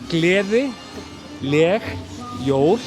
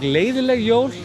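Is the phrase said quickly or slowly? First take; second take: slowly; quickly. First: It is said slowly, part by part. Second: It is said quickly, running together.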